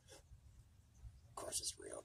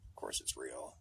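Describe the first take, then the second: First: Slow drawn-out hypnotic whisper; eerie whisper. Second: Said in the usual way. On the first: Pretend. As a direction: lull them back into belief. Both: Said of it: "repeated, second whispered".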